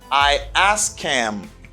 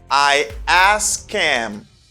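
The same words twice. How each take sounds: First: The h in him is dropped entirely. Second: The h in him is dropped entirely.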